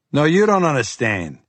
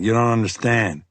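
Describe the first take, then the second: First: "you" pushed higher and harder; stress on you. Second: Said in the usual way. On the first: Acted. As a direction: throw "you" back at him, raised. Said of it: "His voice ticked up in volume".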